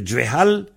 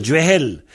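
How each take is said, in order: First: "Djouehal" with breathed h and final -al; original a vowel. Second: "Djehel" with breathed h and final -el; a turned to è. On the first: Teacher giving the base form, "Djouehal" with final -al. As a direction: keep an open a ending "Djouehal". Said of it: "il peut devenir Djehel". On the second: Teacher showing the possible change, "Djehel" with final -el. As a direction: end "Djehel" on an è vowel. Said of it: "il peut devenir". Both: Shown as a demonstration.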